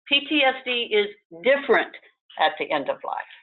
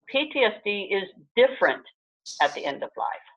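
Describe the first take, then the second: First: It is said with noticeably stronger emphasis. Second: It is said with mild, ordinary emphasis.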